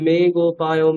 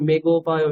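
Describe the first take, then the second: First: The vowel in 'me' is drawn out long. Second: The vowel in 'me' is kept short. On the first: The speaker calls it right. "দীর্ঘ বর্ণগুলো টানতে টানতে হবে" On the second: The speaker calls it wrong. "মে একারটাকে না টেনেই মে গোপায় এরকম বলে দিলেন"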